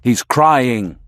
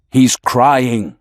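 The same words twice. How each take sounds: First: A touch of trance-like chanting; mesmerizing tone. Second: Lightly hypnotic repetition; a hint of a trance-like chant; mesmerizing tone. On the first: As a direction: let the repeat lull him further. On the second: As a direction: lull him with the words. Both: A narrator's reading. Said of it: "in a mesmerizing tone".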